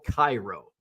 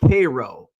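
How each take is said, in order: First: The name is said the commonly expected way. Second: The name is said the local Illinois way. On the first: "which is spelled Cairo" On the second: "it's just mispronounced names, like Cairo"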